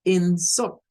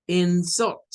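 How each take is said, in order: First: "insult" starting strong on IN, dropping for sult; noun-style "insult", first syllable stressed. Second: "insult" with a weak first syllable rising to a strong SULT; stress on second syllable. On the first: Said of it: "en el segundo caso se debe pronunciar como". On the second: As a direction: lean on the end of "insult": in-SULT. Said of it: "esta primera la debemos de pronunciar como". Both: Shown as a demonstration.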